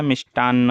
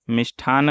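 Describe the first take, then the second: First: मिष्टान्न with hard ṭ and double n; no breath after the ṭ in मिष्टान्न; unaspirated ṭ. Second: मिष्ठान with breath after the ṭ; aspirated ṭh. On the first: Teacher correcting the word, मिष्टान्न with unaspirated ṭ. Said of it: "मिष्टान्न होता है". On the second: Teacher showing a common mistake, मिष्ठान with aspirated ṭh. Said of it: "नहीं होता है". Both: Shown as a demonstration.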